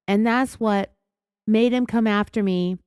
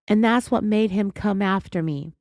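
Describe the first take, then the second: First: The phrase is spoken slowly and in a measured way. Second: The phrase is spoken quickly and agitatedly. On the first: "it was just like this, is how she said it" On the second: "I probably said it faster because I'm like really worked up"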